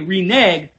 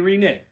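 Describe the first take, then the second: First: The second syllable sounds like 'neg'. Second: The second syllable sounds like 'nig'. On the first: "I don't know why they don't say reneg" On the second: "but they say reneg"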